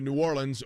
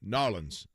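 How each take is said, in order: First: The name is said in full, all syllables. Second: The name is squeezed into two short syllables.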